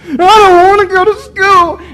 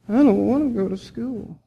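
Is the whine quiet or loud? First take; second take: loud; quiet. First: The whine is much louder. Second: The whine is fairly quiet.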